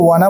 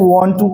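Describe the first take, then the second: First: The two words blend into one reduced word. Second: Both words are said fully and separately. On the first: "short में spoken में बोल देते हैं" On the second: "वांट टू को"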